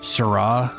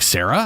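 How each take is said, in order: First: It does not sound like the name Sarah. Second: It sounds just like the name Sarah. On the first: The speaker calls it right. "that's how you pronounce it" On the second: The speaker calls it wrong. "they're all like Sarah"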